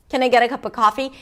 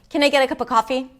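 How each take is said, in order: The two takes are said the same way.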